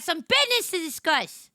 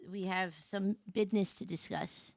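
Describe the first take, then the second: First: "business" punched high; emphatic announcement. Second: Low, soft, offhand delivery; understated announcement. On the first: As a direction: hit "business" hard, pitch jumping up. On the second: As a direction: say it quietly, as a casual note. First take, low and casual. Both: Real, not acted.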